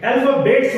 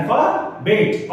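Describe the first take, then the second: First: अल्फाबेट्स with an added s sound at the end; wrong plural form. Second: अल्फाबेट slowly, ending on t with no s; correct singular form. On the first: Teacher warning pupils off the plural, अल्फाबेट्स with final s. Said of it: "अल्फाबेट्स मत बोलना". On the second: Teacher correcting the plural, अल्फाबेट slowly without final s. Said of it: "तो अल्फाबेट्स नहीं है ये". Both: Shown as a demonstration.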